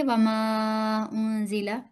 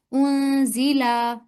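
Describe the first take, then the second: First: वमा उनजिला with a single short beat on ला, said slowly; short lam vowel. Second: उनजीला with the ला stretched long, as the student misread it; student's long vowel. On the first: Shown as a demonstration. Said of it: "यहीं से दोबारा पढ़िए". (वमा उनजिला में ला को एक हरकत पर छोटा पढ़ना) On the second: Retold or imitated. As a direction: lengthen the ला in उनजीला. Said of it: "लाम के साथ अलिफ नहीं है". (उनजीला में ला को लंबा खींचना)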